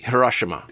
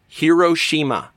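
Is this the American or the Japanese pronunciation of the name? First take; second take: Japanese; American. First: It is said roughly the Japanese way. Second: It is said the American English way. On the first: "And in Japan, it's pronounced roughly" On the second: "In America, Hiroshima is often pronounced"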